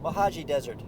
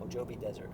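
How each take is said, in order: First: The J is sounded as an H. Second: The J is sounded as a J. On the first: The speaker calls it right. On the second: The speaker calls it wrong. "Remember the J sounds like an H?"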